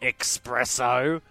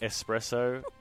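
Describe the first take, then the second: First: It begins with a KS sound, like X. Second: It begins with a plain S sound, no K. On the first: The speaker calls it wrong. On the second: The speaker calls it right.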